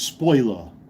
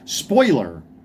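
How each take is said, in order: First: It is said in a New York accent. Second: It is said in a Southern accent. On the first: "when you live in New York, everything's spoiler" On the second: "trying to enunciate certain words like the way people speak here"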